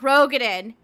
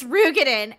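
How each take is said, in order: First: The first vowel sounds like 'oh'. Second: The first vowel sounds like 'oo'. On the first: This is the long-assumed pronunciation. The speaker calls it wrong. "It's not Rogadin" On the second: This is the official pronunciation. The speaker calls it right. "it's Rugadin"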